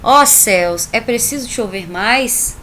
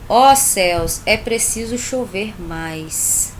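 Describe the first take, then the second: First: Loud "Ó céus", rising "é preciso chover mais"; corrected intonation. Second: A first try with the tune off; wrong intonation. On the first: Teacher rereading the example with emphatic invocation. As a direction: call out to the sky, end "mais" rising. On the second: Teacher reading the example with wrong intonation. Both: Shown as a demonstration. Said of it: "fiz as entonações incorretas".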